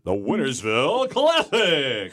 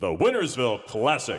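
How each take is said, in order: First: It is said with a high, rising voice. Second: It is said in a deep, authoritative voice.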